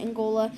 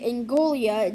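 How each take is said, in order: First: No extra sound comes before the final 'a'. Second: An extra 'ee' sound comes before the final 'a'. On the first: The speaker calls it right. "You pronounce it Angola" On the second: The speaker calls it wrong. "as I like to say"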